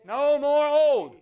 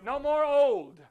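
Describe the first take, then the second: First: Put-on No more old, drawn out and louder, hit on old; slow it down and hammer old; preacher pounding No more old; emphatic preaching. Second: Said in the usual way. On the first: Shown as a demonstration. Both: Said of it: "Say new".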